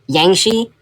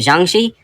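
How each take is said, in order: First: The word begins with a Y sound. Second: The word begins with a J sound. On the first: The speaker calls it wrong. "I said Yangshi instead of" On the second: The speaker calls it right. "I don't know why I thought the letters J and I made a Y sound"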